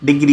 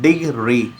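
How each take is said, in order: First: Said in the usual way. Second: डिग्री split into two separate beats; two syllables. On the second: Shown as a demonstration. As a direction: say डिग्री as डिग-री with a small break. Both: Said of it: "ये दो से बना है".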